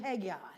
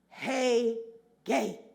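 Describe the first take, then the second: First: The name sounds like 'Hag-eye'. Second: The name sounds like 'Hey-gay'. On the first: The speaker calls it wrong. "I have always pronounced his name Haggai" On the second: The speaker calls it right. "as I listened to the correct pronunciation"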